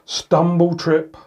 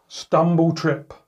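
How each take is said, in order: Both takes have the same delivery.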